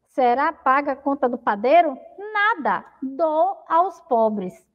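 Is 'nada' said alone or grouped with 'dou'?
alone. "Nada" stands alone, with a pause before "dou".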